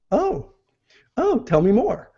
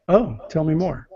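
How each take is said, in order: First: High, rising, eager "Oh, tell me more"; interested oh tell me more. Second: Flat, falling, puzzled "Oh, tell me more"; confused tell me more. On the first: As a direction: sound hooked and curious, "oh" lifting up. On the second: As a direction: sound lost and unsure, "oh" dropping down. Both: Shown as a demonstration. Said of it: "same words, but different inflection with the voice".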